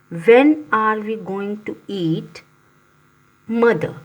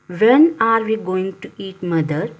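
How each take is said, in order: First: It is said with a pause before mother. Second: It is said without a pause before mother.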